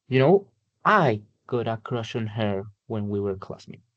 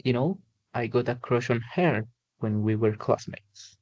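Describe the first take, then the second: First: "I" stressed in "I got a crush on her". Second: "her" stressed in "a crush on her". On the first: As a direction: lean on "I" as the one who had the crush. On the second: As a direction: lean on "her" to point at the girl. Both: Shown as a demonstration. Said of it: "what word are you going to emphasize".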